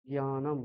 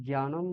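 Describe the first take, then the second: First: জ্ঞানম as a careful j-nya-nam; light j plus ny in জ্ঞানম; Sanskrit pronunciation. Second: জ্ঞানম as gyanam, with hard g; no nasal ny in জ্ঞানম, just gy; Bengali pronunciation. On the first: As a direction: start জ্ঞানম with a nasalised ny sound. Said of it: "এইরকম হবে". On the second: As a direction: say জ্ঞানম the Bengali way, gya-nam. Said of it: "বাংলায় আমরা জ্ঞানম বলি". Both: Shown as a demonstration.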